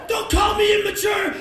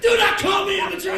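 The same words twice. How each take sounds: First: High, very loud furious yell; screamed protest. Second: "Do not" split and hit hard, screamed; stress on Do. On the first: Comic screaming at the stranger, furious. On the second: Comic insisting to the stranger, screamed stress. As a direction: punch "Do" in the scream. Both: Pretend.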